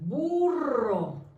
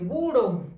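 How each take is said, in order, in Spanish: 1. La r es un trino largo. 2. La r es un toque simple y rápido. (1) "con dos letras r" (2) "si lo escribimos con uno, dice burro"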